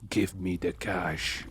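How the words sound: It is said in a deep, low voice. "practicing their deep voice?"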